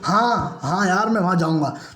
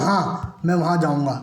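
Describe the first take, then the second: First: It is said in an irritated, exasperated tone. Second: It is said in a calm, plain tone.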